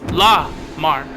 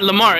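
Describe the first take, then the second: First: The name is split into two separate parts. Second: The name runs together as one word. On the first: The speaker calls it right. "You gotta separate the La from the Mar" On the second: The speaker calls it wrong. "It's not Lamar"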